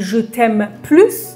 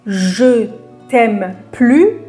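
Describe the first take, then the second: First: The final s of plus is pronounced. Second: The final s of plus is silent. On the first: I love you more. "یعنی من بیشتر دوستت دارم" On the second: I no longer love you. "یعنی من دوستت ندارم"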